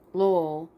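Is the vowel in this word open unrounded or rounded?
rounded. The vowel is rounded, close to 'oh'. "영국식으로는"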